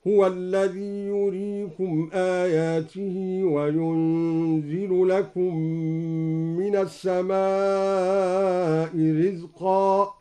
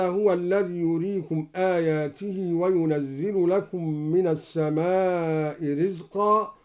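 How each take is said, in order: First: ينزل said yunzilu without a doubled z; slow chanted recitation with yunzil; light ينزل. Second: Slow, chanted tajweed recitation; Quran recitation. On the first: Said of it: "قرأ بتخفيف ينزل هكذا". (تخفيف ينزل) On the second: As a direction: recite with measured melody. Recites verse before demo. (تلاوة مجودة) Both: Shown as a demonstration.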